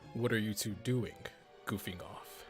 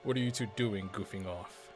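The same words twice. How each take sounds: First: There is a pause before 'goofing off'. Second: There is no pause before 'goofing off'. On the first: The speaker calls it wrong. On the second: The speaker calls it right.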